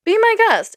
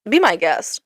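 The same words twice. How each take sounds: First: High, mocking be my guest; sarcastic. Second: Said in the usual way. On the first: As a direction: toss it off in a much higher sarcastic voice. Sarcastic dismissal of truck drivers.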